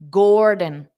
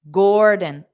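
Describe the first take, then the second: Both takes have the same delivery.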